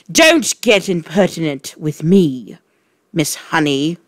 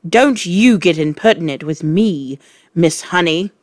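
First: Loud angry snap; snapping. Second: Louder angry snap; snapping. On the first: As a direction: snap at her. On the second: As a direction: bite the words off. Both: Acted. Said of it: "the Trunchbull snapped".

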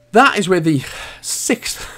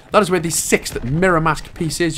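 First: Slow, winded out of breath; puffing between words. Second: Said in the usual way. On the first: Real, not acted. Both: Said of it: "I'm out of breath".

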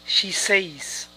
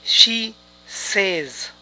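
First: "says" wrongly rhyming with "days"; incorrect pronunciation. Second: "says" as SEZ, words slowly separated; correct pronunciation. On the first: Teacher showing learners the mistake, "says" as SAYZ. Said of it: "esta pronunciación es incorrecta". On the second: Teacher correcting learners, "says" as SEZ, word by word. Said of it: "esta pronunciación es incorrecta. Es". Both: Shown as a demonstration.

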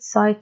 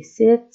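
First: "sight" said with the long I, as in eye. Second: "Sit" said with a short clipped i, as in it. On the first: Teacher contrasting short I with long I, long I in "sight". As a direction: say "sight" so the I says its name. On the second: Teacher contrasting short I with long I, short i in "Sit". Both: Shown as a demonstration. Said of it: "طبعًا هاي إذا كانت long".

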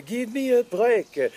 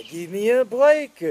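First: Slow, drawn-out French jingle; slow French-accented jingle; mock French accent. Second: Put-on candy jingle in a French accent; mock French accent. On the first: Repeated jingle slower. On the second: Repeated jingle.

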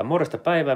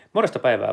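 First: Higher, lilting repeat of morjesta päivää; sing-song greeting. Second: Said in the usual way. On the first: Shown as a demonstration. Streamer cheerfully greeting his live chat, in a higher sing-song. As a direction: lift the pitch on päivää and let it fall.

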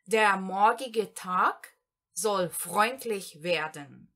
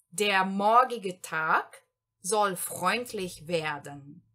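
First: Der morgige Tag soll freundlich werden, very slowly in two parts; slow German example. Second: Der morgige Tag soll freundlich werden in one slow line; slow German sentence. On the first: Teacher dictates the second example to learners, very slowly. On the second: Teacher reads the whole second example in one go, slowly. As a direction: read it whole, slowly and clearly. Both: Shown as a demonstration. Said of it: "exemplo número dois aqui".

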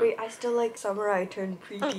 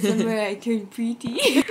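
First: "Summer I Turned Pretty" said through a laugh; laughing at the spelling suggestion. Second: "Pretty" stretched and stressed at the end; title read out with "Pretty" drawn out. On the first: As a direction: giggle through the title. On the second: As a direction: lean on the word "Pretty". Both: Real, not acted. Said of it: "The spelling suggestion".

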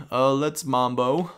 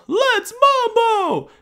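First: Said in the usual way. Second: Much higher, louder and slow, hammed up; silly high voice. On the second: Gamer belts the Latin slogan in a squeaky slow voice. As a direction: stretch it out in a squeaky party voice.

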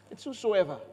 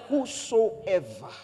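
First: Said in the usual way. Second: "Whosoever" stretched very slow; drawn-out whosoever. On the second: Real, not acted. Preacher stressing the key word by slowing down. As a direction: draw "Whosoever" out long and slow.

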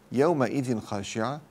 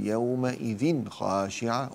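First: Said in the usual way. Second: Slow يومئذ خاشعة with a distinct n before خ; drawn-out recitation, unblended n in يومئذ خاشعة; clear tanween. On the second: Shown as a demonstration. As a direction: sound the n of يومئذ cleanly, then خاشعة. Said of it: "فأنا أظهرها".

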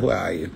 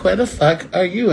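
First: Much lower, softer retelling of the question; toned-down quote. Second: Acted pointed demand, pitched up; mock-confront an absent man, voice lifted; demanding quote. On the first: Retold or imitated. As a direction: drop it low and soft, playing it down. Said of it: "I just said". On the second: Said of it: "I'd be like".

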